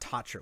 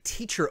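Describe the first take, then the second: First: The first vowel sounds like 'a'. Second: The first vowel sounds like 'ee'. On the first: The speaker calls it wrong. "not Tacher" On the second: The speaker calls it right. "it was Great Teacher Onizuka"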